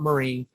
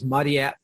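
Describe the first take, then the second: First: The name is said in a Western way. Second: The name is said in a Japanese way. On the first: The name is adapted for Western listeners. The speaker calls it wrong. "It is not Marie. That's just to make it sound more Western" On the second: This is the name's original form. The speaker calls it right. "the correct pronunciation is Mariette Kondo"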